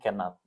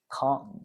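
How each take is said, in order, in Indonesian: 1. Diucapkan dalam bentuk lengkap dua suku kata. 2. Diucapkan sebagai satu suku kata pendek yang disingkat. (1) "bukan cannot" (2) "ya dibacanya kayak gitu"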